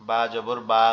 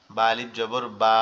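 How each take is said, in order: First: Said in the usual way. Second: Final "বা" stretched out long; long vowel. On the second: Shown as a demonstration. Teacher drills alif after zabar, last "বা" held long. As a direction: spell it evenly, then hold "বা".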